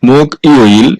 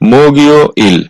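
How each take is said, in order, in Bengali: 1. দুটি অংশ যুক্ত না করে আলাদাভাবে বলা হয়। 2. K পরের সিলেবলে যুক্ত হয়ে g হিসেবে উচ্চারিত হয়।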